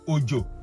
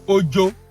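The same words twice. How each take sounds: First: Its tones give the word meaning 'rain'. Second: Its tones give the word meaning 'fear'. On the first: "O J O can be rain" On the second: "O J O can be fear"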